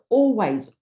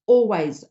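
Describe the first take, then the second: No difference in how they are said.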